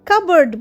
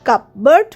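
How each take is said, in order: First: The p sound is left out entirely. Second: The p sound is pronounced in the middle. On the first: The speaker calls it right. "কাবার্ড বলছি" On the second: The speaker calls it wrong. "সেই জন্য আমরা কিন্তু কাপবার্ড বলছি না"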